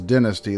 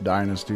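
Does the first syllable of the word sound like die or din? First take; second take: din; die. First: The first syllable sounds like din. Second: The first syllable sounds like die. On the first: "that would be D I N" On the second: "since there's a Y, you know, die"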